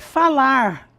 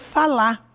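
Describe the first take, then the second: First: The final R is clearly pronounced. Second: The final R is dropped. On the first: "o verbo no infinitivo é falar" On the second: "Nós costumamos dizer falar. Já engolimos o R"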